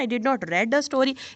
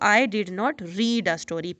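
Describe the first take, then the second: First: The verb is pronounced like 'red'. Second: The verb is pronounced like 'reed'. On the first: The past form of the verb is used. The speaker calls it wrong. "आपने second form of the verb लगा दी जो कि बिल्कुल गलत है" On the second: The base form of the verb is used. The speaker calls it right. "जब आप उसकी फर्स्ट फॉर्म लगाएंगे"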